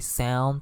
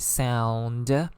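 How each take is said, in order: First: It is said in a plain standard English accent. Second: It is said in an Italian accent, ending sounded.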